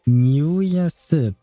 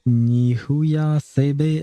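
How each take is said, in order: First: The final vowel is dropped at the end. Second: The final vowel is pronounced at the end. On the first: The speaker calls it right. "So the last E is not actually pronounced" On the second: The speaker calls it wrong. "definitely not the way I was pronouncing it"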